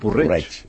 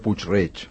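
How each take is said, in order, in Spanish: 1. El nombre empieza con la sílaba reducida 'por'. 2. El nombre empieza con la sílaba completa 'puig'. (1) "la gent de Puig-reig no diu Puig-reig, diu Porreig" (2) "si havia de parlar de Puig-reig, deia Puig-reig"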